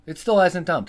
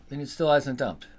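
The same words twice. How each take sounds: First: Exasperated louder repeat. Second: Said in the usual way. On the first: Real, not acted.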